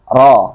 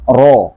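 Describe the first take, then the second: First: The vowel is open and unrounded, a thick fathah. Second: The vowel is a rounded 'o' sound. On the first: The speaker calls it right. "ini sudah tebal" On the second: The speaker calls it wrong. "Bukan ro"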